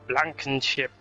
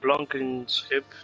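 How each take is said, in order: First: The name is said the German way. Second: The name is said the Dutch way. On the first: "it sounds more German" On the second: "That's the Dutch thing"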